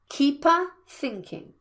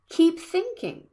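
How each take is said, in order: First: An extra vowel sound comes between the words. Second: The words join with no added vowel sound. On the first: The speaker calls it wrong. "not keep-a thinking" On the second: The speaker calls it right. "Keep thinking, not keep-a thinking"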